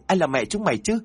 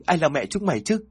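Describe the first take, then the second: First: Much higher, furious denial yell; shouting. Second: Higher, panicked denial; frightened denial. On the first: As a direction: scream the denial at them. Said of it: "cô liền hét lên". (hét lên chối bỏ, giọng cao vọt) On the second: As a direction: deny them in terror. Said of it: "Sợ quá". (hoảng sợ chối bỏ, giọng cao) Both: A narrator's reading.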